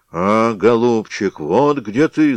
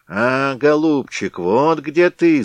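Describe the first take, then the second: First: Loud slow roar; hammed-up loud bear roar. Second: High, slow, loud bleat; bleating ram's head. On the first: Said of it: "заревел медведь". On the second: Acted. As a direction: bleat it like a ram. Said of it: "заблеяла баранья голова".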